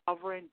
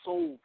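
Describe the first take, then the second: First: The first syllable is said like sov. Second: The first syllable is said like soul. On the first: The speaker calls it wrong. "not sovereign" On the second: The speaker calls it right. "he's saying it with soul"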